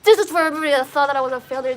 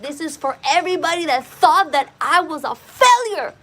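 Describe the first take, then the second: First: Chanted, fast, driven, loud repetition; chanted, rattle it off, tears pouring out; rushed tearful chant. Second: Louder, higher, voice strained by tears; tearful defiant cry. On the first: Chanted, crying out again to the doubters, racing through it. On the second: Dancing on the sidewalk, crying out to everyone who called him a failure. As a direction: hurl it at every doubter through sobs. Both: Retold or imitated. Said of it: "I was just fucking just bawling".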